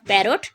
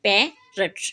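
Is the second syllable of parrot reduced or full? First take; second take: full; reduced. First: The second syllable has a full vowel. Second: The second syllable is short and reduced. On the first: The speaker calls it wrong. "Not पैरोट" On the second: The speaker calls it right. "इसमें two syllable हैं, पे and रट"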